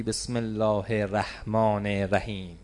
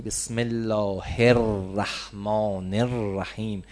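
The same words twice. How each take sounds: First: الرحمن said quickly as "eraḥmān", the r not doubled; الرحمن run together with a short single r; careless Bismillah. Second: الرحمن said slowly, "er-raḥmān" with a doubled r and the article sounded; slow and careful, الرحمن with a full doubled r; correct Bismillah. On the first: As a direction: slur الرحمن with a single light r. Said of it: "چرا حق نداری بگی". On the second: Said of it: "باید بگی". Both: Shown as a demonstration.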